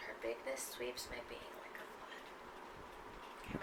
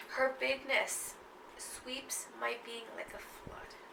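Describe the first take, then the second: First: Slow near-whisper of the line; soft repeat. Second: Slow, hushed recital; poem reading. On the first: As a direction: let "bigness" rise softly, barely voiced. Repeats line much softer. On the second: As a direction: draw the line out softly. Reads the poem line. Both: Acted.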